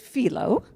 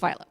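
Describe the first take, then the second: First: The name is said with a Greek pronunciation. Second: The name is said with an American pronunciation. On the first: "the Greek pr- pronunciation is philo" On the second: "the American pronunciation is philo"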